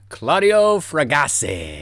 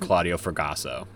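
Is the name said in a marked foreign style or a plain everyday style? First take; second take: marked foreign; plain everyday. First: The name is said in a marked, Italian-sounding style. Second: The name is said in a plain, everyday style. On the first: "Should I say it not like that?" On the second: "Do you want me to say it like a normal person?"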